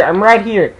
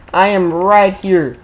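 First: Said in the usual way. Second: "am" said slowly and firmly; stress on am. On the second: Real, not acted. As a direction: lean on "am" in "I am right here".

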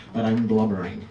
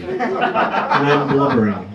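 First: Said in the usual way. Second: Drawn out, half-laughing admission of blubbering. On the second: Retold or imitated. Telling the crowd how he cried at breakfast, slow and laughing. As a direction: stretch it out slowly with a laugh. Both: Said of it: "I'm not exactly the blubbering type".

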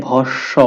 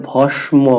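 First: ভস্ম with a doubled s sound, slowly; correct pronunciation. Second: ভস্ম with the ম clearly sounded; wrong pronunciation. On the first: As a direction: say ভস্ম as bhossho, the s held long. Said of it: "দন্ত সটা দুইবার উচ্চারিত হবে". (ভস্ম সঠিকভাবে, দন্ত স দুইবার, ধীরে) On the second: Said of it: "কিন্তু এটা ভস্ম হবে না". (ভস্ম ভুল উচ্চারণে, ম স্পষ্ট করে) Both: Shown as a demonstration.

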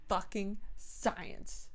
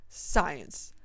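First: "Fucking" hit hard, whole line drawn out very slow; slow stress on fucking. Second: Said in the usual way. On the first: Shown as a demonstration. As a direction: lean on "Fucking", then a falling "science".

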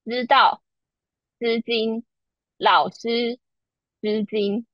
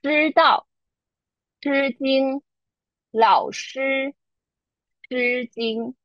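First: 知道 with a softened flat z-like zh; 老师 with sh softened toward s; Taiwanese soft retroflex. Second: 知道 with a hard curled zh, tongue back; 老师 with a strong retroflex sh; Beijing retroflex. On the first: Teacher demonstrating softened Taiwanese retroflex sounds. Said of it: "it sounds like this". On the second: Teacher demonstrating Standard Chinese retroflex sounds. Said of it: "the following four words sound like this". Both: Shown as a demonstration.

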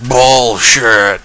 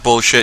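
First: Loud, stretched-out protest; drawn-out mock outcry. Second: Said in the usual way. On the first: Retelling a man shot in the belly, drawn-out mock cry. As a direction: drag the word out, hammed-up.

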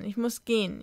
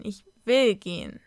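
First: Said in the usual way. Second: Will punched with more resolve; stronger, stress on will. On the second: A narrator's reading. Sam tells her mother she is leaving, stressing will. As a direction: hit "will" firmly. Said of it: "sagte Sam jetzt stärker".

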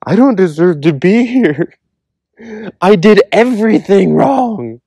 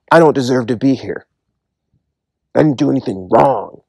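First: Much higher, humbled voice of the repentant; humble confession. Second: A mild, understated protest; people in hell crying out. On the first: People in heaven confessing their unworthiness, humbly and high. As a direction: confess it small, lifting the pitch high and slowing the last line. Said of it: "are saying". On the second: People in hell insisting to God they did nothing wrong, mildly protesting. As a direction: voice of the unrepentant, pleading innocence in a near-usual tone. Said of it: "they're crying out". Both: Retold or imitated.

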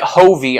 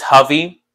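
First: "Hovey" with a long O, as HOH-vee; wrong pronunciation. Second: "Hovey" with a short first vowel, as HUV-ee; checked pronunciation. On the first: Retold or imitated. Streamer quoting what others say, "Hovey" as long-O HOH-vee. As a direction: stretch the O in "Hovey". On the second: Shown as a demonstration. Streamer checking a name with chat, "Hovey" as HUV-ee. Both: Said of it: "I know that one's wrong".

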